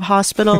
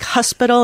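First: Said in the usual way. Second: "hospital" with dropped r-colouring, Boston vowel; Boston accent. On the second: Retold or imitated. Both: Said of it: "instead of hospital".

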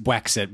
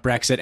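First: "Brexit" said as "Bwexit"; imitated bear-speak "Bwexit", slowly; baby-talk R as W. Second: Said in the usual way. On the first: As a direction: turn the R in "Brexit" into a W. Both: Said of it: "and did post Brexit".

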